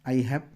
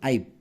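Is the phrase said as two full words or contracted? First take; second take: full; contracted. First: Two full separate words are said. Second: The two words merge into one short syllable.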